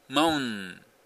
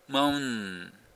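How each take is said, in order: No difference in how they are said.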